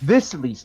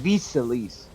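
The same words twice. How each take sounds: First: "this Elise" with a short "i" as in "sit"; corrected pronunciation. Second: "these Elise" with a long ee vowel, "theez"; wrong pronunciation. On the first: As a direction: stress "this" with a short lax "i". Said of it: "not these Elise". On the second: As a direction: say "these Elise" with a tense "ee" as in "see". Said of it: "It's not the same word". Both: Shown as a demonstration.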